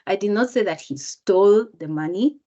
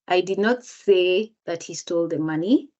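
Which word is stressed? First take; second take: stole; say. First: The word "stole" carries the main stress. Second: The word "say" carries the main stress. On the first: He got the money some other way. "if I change the word even stole, just by intonation" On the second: It was conveyed another way, not spoken. "if the speaker emphasizes the word say"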